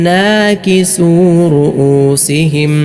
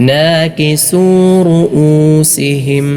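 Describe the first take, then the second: The two takes are said the same way.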